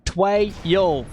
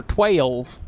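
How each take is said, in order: First: "Twelve" split hard into "tway - yolv"; overdone Texas "Twelve", a gap between its two syllables; exaggerated two-syllable twelve. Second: "twelve" drawn out as "tway-olv"; slow Southern "twelve", vowel broken in two; twelve in two syllables. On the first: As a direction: break "Twelve" into two separate drawled beats. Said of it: "puts two syllables on the number twelve". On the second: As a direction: stretch "twelve" into two gliding syllables, Texas style. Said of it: "the accent often puts two syllables". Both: Shown as a demonstration.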